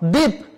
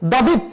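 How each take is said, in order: First: No extra consonant follows the first consonant. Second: An extra consonant follows the first consonant. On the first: The speaker calls it right. "প্রথমে ব ফলা থাকলে কোনো উচ্চারণ হবে না" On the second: The speaker calls it wrong. "এরকম বলা যাবে না"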